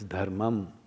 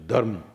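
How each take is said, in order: First: The word ends with a final syllable. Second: The word ends without the final syllable. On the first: This is the Sanskrit form. "It's dharmam in Sanskrit" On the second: This is the North Indian way of saying it. "you eat up the last syllable and say dharma"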